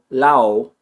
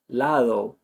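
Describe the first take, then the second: First: The d sound is dropped completely. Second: The d is soft, with no tongue contact. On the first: "I'm not just eliminating the D" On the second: "no contact really happens"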